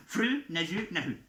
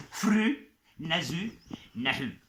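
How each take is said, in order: First: Said in the usual way. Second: Slow teaching take. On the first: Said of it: "Ça veut dire, en gros". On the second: Shown as a demonstration. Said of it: "Vous êtes prêts?".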